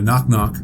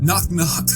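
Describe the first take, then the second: First: It is said with low, flat energy. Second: It is said with very high, excited energy. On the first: The teller seems uninterested in the joke. "not coming at it with a nut up" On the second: The teller seems overly eager, even threatening. "with way too much excitement"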